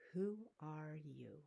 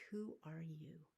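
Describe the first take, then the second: First: Slow, searching question. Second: Whispered question. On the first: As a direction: ask it slowly, drawn out. Repeated question, slower. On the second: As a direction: breathe the question, unvoiced. Native societies asking, acted quote. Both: Acted.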